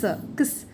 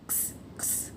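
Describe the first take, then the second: First: Said in the usual way. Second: क्स voiceless and breathy, just the k and s sounds with no vowel; phonics sound demo. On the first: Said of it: "क और स". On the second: Shown as a demonstration. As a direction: hiss out क्स as a bare consonant cluster. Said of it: "इसको क्स कहते हैं".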